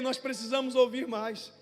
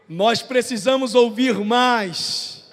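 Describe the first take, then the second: First: It is said at a normal volume. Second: It is said much louder.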